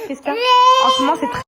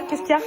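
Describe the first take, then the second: First: High cooing. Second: Said in the usual way. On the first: Real, not acted. Mother coos high to her crying baby. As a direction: coo up high to calm the little one.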